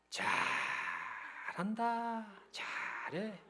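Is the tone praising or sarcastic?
sarcastic. It is said in a sarcastic, displeased tone. The listener is being mocked and disapproved of. "빈정거리고 비꼬고 막 아주 못마땅해가지고"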